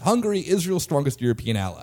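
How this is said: The voice falls at the end like a statement. It is stated as a fact. The speaker calls it right. "It was not a question"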